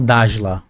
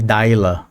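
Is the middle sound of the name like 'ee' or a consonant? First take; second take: consonant; ee. First: The middle sound is a consonant, not 'ee'. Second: The middle sound is a vowel like 'ee'. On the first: "não Dajla ou Dakla" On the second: "O J tem som de I, aí eu leio sempre Daila"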